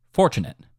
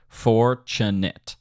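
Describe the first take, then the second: First: Said in the usual way. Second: "Fortunate" slowly split, FOR-tu-nate; drawn-out syllables. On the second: Shown as a demonstration. Teacher checks the downbeat, "Fortunate" said slowly in syllables. Word drawn out versus natural saying.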